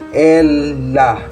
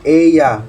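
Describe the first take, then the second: First: The double L sounds like an L. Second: The double L sounds like a Y. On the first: The speaker calls it wrong. "we don't pronounce it" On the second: The speaker calls it right. "but ella. So doble ella or doble L is pronounced as Y"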